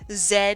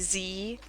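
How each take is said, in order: First: The letter is pronounced zed. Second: The letter is pronounced zee. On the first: This is the Canadian way the speaker avoids. The speaker calls it wrong. "I don't say Z" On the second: This is the American way the speaker uses. The speaker calls it right. "I say Z"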